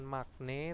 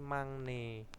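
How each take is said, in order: First: A hard k-like stop comes before the n. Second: A nasal ng sound comes before the n. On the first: The speaker calls it wrong. "bukan magne" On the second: The speaker calls it right. "tapi mangne"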